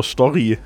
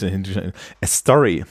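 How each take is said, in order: First: "Story" said the German way, with a German S and a rolled R; German pronunciation. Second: "A story" said slowly in English, with an English R; English pronunciation. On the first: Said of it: "ich die dann deutsch ausspreche". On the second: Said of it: "ich finde das total komisch". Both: Shown as a demonstration.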